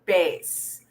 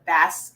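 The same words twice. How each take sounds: First: "bass" said like "base"; deep-voice pronunciation. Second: "bass" with a short a, rhyming with mass; fish pronunciation. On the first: Teacher showing the other homograph, "bass" said "base". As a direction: say "bass" with a long a, rhyming with face. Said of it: "it's pronounced as". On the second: Teacher contrasting spelling with the fish, "bass" said with short a. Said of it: "the fish". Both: Shown as a demonstration.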